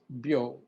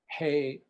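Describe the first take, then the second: First: The word begins with a b sound. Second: The word begins with an h sound. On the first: This is the reading used in Buddhism and tea. "but in Buddhism and in tea, it's byo" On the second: This is the everyday reading. "Most Japanese would pronounce it hei"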